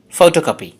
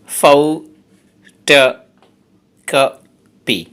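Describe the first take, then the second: First: Said in the usual way. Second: photocopy pulled apart into slow, separate syllables; teacher breaking photocopy into its syllables. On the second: Shown as a demonstration. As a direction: spell out photocopy one syllable at a time, very slowly. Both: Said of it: "এই ওয়ার্ডটাতে আছে চারটে syllable".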